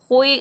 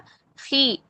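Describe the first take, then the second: First: The kh is said heavy, with a full mouth. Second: The kh is said light, with a thin sound. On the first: The speaker calls it wrong. "खुई खुई गलत है" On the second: The speaker calls it right. "खी सिर्फ मखरज से अदा हो रहा है"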